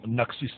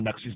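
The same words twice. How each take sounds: First: Naxis said the spoken way, final s silent, "nak-si"; spoken pronunciation. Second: Naxis said as written, final s sounded, "nak-sis"; pronounced as written. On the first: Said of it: "c'est parce qu'on dit Naxis". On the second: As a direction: read Naxis letter by letter, ending on a clear s. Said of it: "je prononce comme ils ont écrit". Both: Shown as a demonstration.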